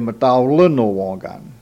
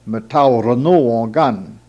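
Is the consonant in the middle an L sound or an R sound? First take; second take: L sound; R sound. First: The word is said with an L sound. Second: The word is said with an R sound. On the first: This is how it is said nowadays. "Nowadays they don't say R, they say" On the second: This is the older pronunciation. "we read"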